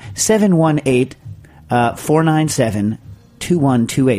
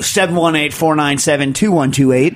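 First: The number is said at a slower pace. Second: The number is said quickly.

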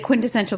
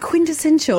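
First: It is said in her ordinary, non-British accent. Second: It is said in a put-on British accent.

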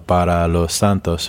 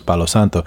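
First: Every syllable is said fully and clearly. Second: The syllables are said quickly and run together. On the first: It is said before giving an offering to the saints. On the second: It sounds like the name of the wood.

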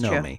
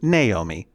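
First: The name is said with two syllables. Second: The name is said with three syllables. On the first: The speaker calls it right. "but it is pronounced" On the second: The speaker calls it wrong. "a lot of people would mispronounce your name"

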